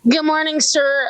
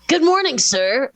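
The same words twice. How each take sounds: First: It sounds flat and annoyed. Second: It sounds pleasant, not annoyed.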